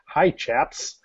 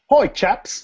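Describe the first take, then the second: First: It is said in the speaker's plain accent. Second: It is said in a put-on British accent. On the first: "Okay, I'll stop" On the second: "you have to read it in a British accent"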